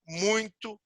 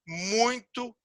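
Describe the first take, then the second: No difference in how they are said.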